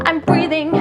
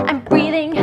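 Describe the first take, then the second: Both takes have the same delivery.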